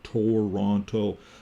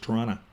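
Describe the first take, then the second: First: Every sound is said just as it is spelled. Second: It is said in a relaxed, reduced local way. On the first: The speaker calls it wrong. "if you look at it" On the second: The speaker calls it right. "That's how we say it in the West"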